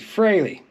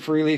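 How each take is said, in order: First: The first syllable sounds like 'fray'. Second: The first syllable sounds like 'free'. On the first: The speaker calls it right. "it's actually Fraley" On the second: The speaker calls it wrong. "I said Freely for a long time"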